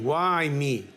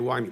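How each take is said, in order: First: It sounds like a bitter, whining complaint. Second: It sounds like a calm, curious question. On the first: The speaker protests that this happened to them. The speaker calls it wrong. "in the lotion of a taina, why do you do this to me, God?" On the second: The speaker wants to learn the reason it happened. The speaker calls it right. "Let me understand why this happened"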